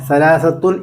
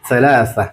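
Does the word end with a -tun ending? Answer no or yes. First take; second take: yes; no. First: The word ends with an extra -tun syllable. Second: The word ends without any -tun syllable. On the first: This is the full written form. "സലാസത്തുൻ എന്നുണ്ട്" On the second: This is the everyday spoken form. "സലാസ എന്ന് പറഞ്ഞാൽ മതി കേട്ടോ. സ്പോക്കൺ ആകുമ്പോൾ അങ്ങനെയാണ്"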